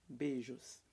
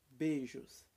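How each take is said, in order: Both takes have the same delivery.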